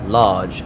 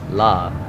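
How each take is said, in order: First: The word ends with its final consonant sound. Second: The word ends without its final consonant sound. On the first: The speaker calls it right. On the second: The speaker calls it wrong.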